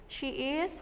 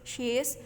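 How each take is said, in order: First: It is said as two full separate words. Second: It is said as one contracted syllable.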